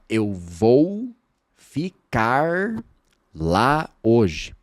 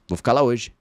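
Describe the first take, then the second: First: Every sound of the phrase is said in full. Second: The phrase is shortened, with sounds dropped. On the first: The speaker calls it wrong. "Você não fala" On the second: The speaker calls it right. "Você diz"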